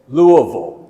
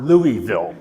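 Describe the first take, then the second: First: The name is said the local way. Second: The name is said the outsider way. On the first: The speaker calls it right. "may I say, Louisville" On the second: The speaker calls it wrong. "not Louisville"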